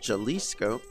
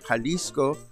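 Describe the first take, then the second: First: The name is pronounced the English way. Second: The name is pronounced the Spanish way. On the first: The speaker calls it wrong. "he just insists that it's called Jalisco" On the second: The speaker calls it right. "Spanish pronunciation"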